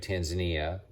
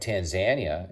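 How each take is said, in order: First: It uses the common English pronunciation. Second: It uses the local Tanzanian pronunciation.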